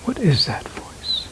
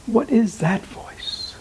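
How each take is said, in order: First: Hushed whisper of the question; whispered inquiry. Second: Slow and higher, asking the inner voice itself; slow, searching question. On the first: Teacher modelling the silent inner question, whispered. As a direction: whisper it, as if asked silently inside. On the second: Teacher slowly voicing the inquiry to students, slow and higher. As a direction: draw the question out, higher, as if listening inward. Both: Shown as a demonstration. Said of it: "Next time you hear that voice".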